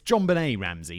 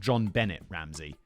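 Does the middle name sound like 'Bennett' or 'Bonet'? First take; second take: Bonet; Bennett. First: The middle name is said like 'Bonet'. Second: The middle name is said like 'Bennett'. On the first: The speaker calls it right. "It's John Bonet Ramsey" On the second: The speaker calls it wrong. "not John Bennett Ramsey"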